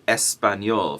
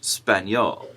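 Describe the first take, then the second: First: The word begins with a vowel sound before 'sp'. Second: The word begins directly with the cluster 'sp'. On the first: The speaker calls it right. "we say español for Spanish" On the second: The speaker calls it wrong. "and not just español"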